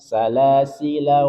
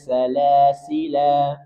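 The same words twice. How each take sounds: First: The final vowel is kept short. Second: The final vowel is drawn out long. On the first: The reading continues without stopping. "kita baca pendek" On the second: The reading stops at this word. "Dia dibaca panjang"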